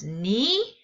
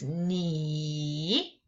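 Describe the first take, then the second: First: The pitch rises across the syllable. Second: The pitch dips down and then rises. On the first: "The second tone is Ni, Ni, sort of like what" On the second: "It goes down and goes up"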